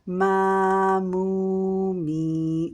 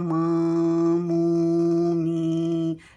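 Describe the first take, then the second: First: The syllables are spoken without a nasal sound. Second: The syllables are spoken with a nasal sound. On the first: The speaker calls it right. "Make sure right pronunciation" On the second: The speaker calls it wrong. "Then the sound is going to your nose. This is wrong pronunciation"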